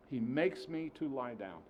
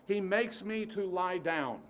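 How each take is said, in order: First: Said in the usual way. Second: \"makes\" lifted high and slow; first take, emphatic. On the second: Shown as a demonstration. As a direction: stress makes slowly.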